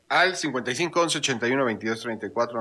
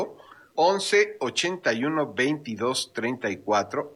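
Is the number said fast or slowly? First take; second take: fast; slowly. First: The number is said at a fast pace. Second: The number is said at a slow pace.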